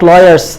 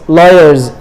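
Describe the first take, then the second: First: The final sound is a hissing s. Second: The final sound is a buzzing z. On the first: The speaker calls it wrong. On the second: The speaker calls it right. "then the sound becomes za"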